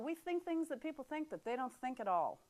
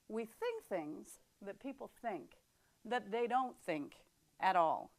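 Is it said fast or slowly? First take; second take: fast; slowly. First: It is said fast. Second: It is said slowly.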